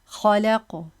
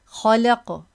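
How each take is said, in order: No difference in how they are said.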